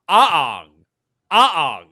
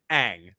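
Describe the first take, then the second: First: "ah" long and open, loud, closing into "ong"; Aang as "ah-ong". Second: "ang" in one syllable, rhyming with "hang"; Aang with flat A. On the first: Showing how his name would probably be pronounced, loud open "ah-ahng". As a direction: stretch "ah" loudly into two beats, "ah-ahng". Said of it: "how you would probably pronounce his name". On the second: Contrasting the usual reading of his name, short-A "ang". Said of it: "rather than ang". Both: Shown as a demonstration.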